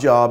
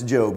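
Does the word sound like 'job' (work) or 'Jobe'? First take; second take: job; Jobe. First: It sounds like the everyday word job. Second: It sounds like the name Jobe. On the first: The speaker calls it wrong. "It's not Job" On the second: The speaker calls it right. "it's Job. You're probably at your job"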